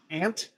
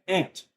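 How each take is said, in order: First: "Ant?" as a rising, checking question; puzzled question. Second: "Ant." said flat and final with a fall; flat statement. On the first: Officer checking the odd middle name, rising "Ant?". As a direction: ask "Ant?" back in disbelief. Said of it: "Like the bug?". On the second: Officer confirming the middle name, falling "Ant.". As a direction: state "Ant." as settled fact. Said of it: "He goes, "Yeah". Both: Retold or imitated.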